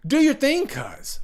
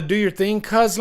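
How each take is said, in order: First: High, incredulous quoting of the line; excited quote. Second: Lightly voiced movie character quote; quoting the line. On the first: Retold or imitated. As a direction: toss the line out in mock disbelief. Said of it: "Why wouldn't you like". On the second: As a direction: read the line as a casual quote.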